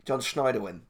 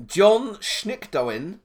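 First: "Schneiderwin" said smoothly as SHNY-der-win; "Schneiderwin" at normal pace, German Schneider plus win; corrected name. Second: "Schnickdowen" read out slowly and unsure, SHNICK-doh-en; mispronounced name. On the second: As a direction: sound out "Schnickdowen" hesitantly, syllable by syllable. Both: Shown as a demonstration. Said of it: "I think Schneiderwin's probably more likely".

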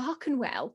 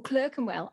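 First: "Clerkenwell" with first syllable as "clark"; pronunciation attempt. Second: "Clerkenwell" with first syllable as in "clerk", rhyming with "work"; alternative pronunciation. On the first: Unsure author names the posh place, "Clerkenwell" said as CLARK-en-well. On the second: Author offers other version, "Clerkenwell" said as CLURK-en-well. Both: Shown as a demonstration. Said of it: "I don't know how to say Clerkenwell".

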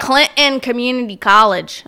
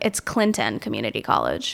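First: "Clinton" with the T swallowed, louder; mock the local "Clinton" with a dropped T; local pronunciation. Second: "Clinton" with its T clearly said, low and softer; corrected pronunciation. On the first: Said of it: "It's not Clinton". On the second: Shown as a demonstration. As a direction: correct them quietly with a crisp T in "Clinton". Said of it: "I'm always like".

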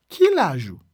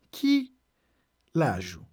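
First: Said in the usual way. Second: Broken in two. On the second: Shown as a demonstration. Teacher teaching how to ask someone's age, broken in two. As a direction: split the words apart for learners.

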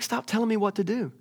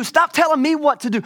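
First: Higher pitched, held-back mock exasperation; mild exasperation. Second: High, loud mock outburst; acted shout of exasperation; exasperated shout. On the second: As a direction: blow up as a fed-up God. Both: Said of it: "He's like".

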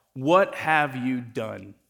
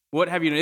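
First: Drawn out, heavy disbelief; slow, stunned question. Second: Snappier, at normal pace; quick repeated rebuke. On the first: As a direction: let each word sink in slowly. Samuel confronting Saul, first time. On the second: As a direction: fire the question back quickly. Samuel repeats his rebuke to Saul. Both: Retold or imitated.

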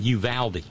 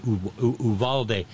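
First: Uvalde as you-VAL-dee; contrasted pronunciation. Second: Uvalde as oo-VAHL-day; contrasted pronunciation. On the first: Comparing two ways to say Uvalde, you-VAL-dee. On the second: Comparing two ways to say Uvalde, oo-VAHL-day. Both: Shown as a demonstration. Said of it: "kinda like the difference between".

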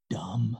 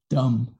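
First: Hushed, low, secretive word; real quiet voice. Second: Said in the usual way. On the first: Retold or imitated. Daughter confiding a bad word to dad, real quiet voice. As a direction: say it very softly, as if it's forbidden. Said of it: "said in a real quiet voice". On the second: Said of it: "was the D word".

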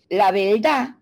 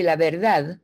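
First: "La verdad" as "la belda", with an L for the R; Puerto Rican accent. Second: "la verdad" with a clear tapped R; careful neutral "verdad"; pronunciación neutra de "verdad"; standard pronunciation. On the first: Retold or imitated. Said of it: "un puertorriqueño te dice". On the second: Shown as a demonstration. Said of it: "en vez de decirte".

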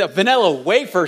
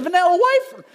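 First: Said in the usual way. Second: High Southern "wafer", said like "wyfer"; Southern accent. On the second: Retold or imitated. Son asking Dad for a snack, in a picked-up Southern accent. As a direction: imitate a kid's Southern twang, "wafer" rhyming with "lifer". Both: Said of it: "It's not a wafer".

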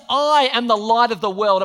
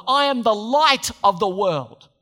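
First: Louder, with "I" punched hard; a boastful stress on "I"; mock egomaniac. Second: Slow, weighty stress on "light"; declaring it solemnly. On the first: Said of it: "Who says ... apart from a weird egomaniac". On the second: Retold or imitated. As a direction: proclaim "light" slowly and grandly. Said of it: "He declared to people".

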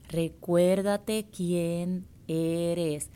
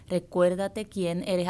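First: Recuérdate quién eres, every word drawn out very slowly; slow emphatic reminder. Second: Said in the usual way. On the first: Shown as a demonstration. Coach urging the listener to remember herself, very slowly. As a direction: stretch it out like a mantra.

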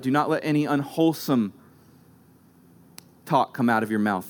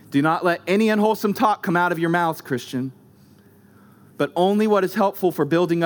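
First: "not" stressed, "talk" dropped low and slow; slow weighted reread. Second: Verse read briskly; quick first reading. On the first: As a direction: linger on "unwholesome", sink on "talk". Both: Shown as a demonstration. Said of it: "Unwholesome, interesting word".

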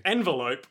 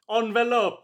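First: Said in the usual way. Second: Envelope said ahn-veh-lope in a mock Italian accent; a hammed-up Italian envelope, pitched up. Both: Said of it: "or as the Italians say".

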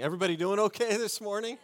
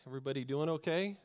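First: Higher, fast, rising crowd greeting; energetic greeting. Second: Said in the usual way. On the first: Shown as a demonstration. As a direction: pump up the room, asking again. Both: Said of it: "super convincing".

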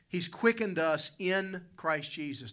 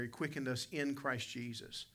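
First: "quickened" leaned on hard, slow and higher; slow emphatic preaching. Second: Said in the usual way. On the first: Shown as a demonstration. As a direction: dwell on "quickened" to drive it home. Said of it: "the Bible says". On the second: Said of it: "Letter E there".

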